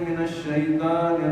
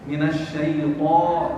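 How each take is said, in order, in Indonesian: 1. Bunyi t-nya ringan dan tipis. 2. Bunyi t-nya berat dan emfatik.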